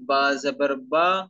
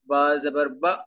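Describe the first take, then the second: First: The final vowel is short and smooth. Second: The final vowel is cut off with a jolt. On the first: The speaker calls it right. "ना इनकी आवाज लंबी हो और ना ही इनमें झटका हो, बल्कि मारूफ पढ़ेंगे" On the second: The speaker calls it wrong. "ये जो झटका है, झटका भी नहीं होना चाहिए"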